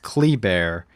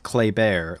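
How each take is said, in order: First: The first vowel is not an 'eh' sound. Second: The first vowel is an 'eh' sound. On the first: "I heard it pronounced Kleber" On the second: "like with an eh kind of sound"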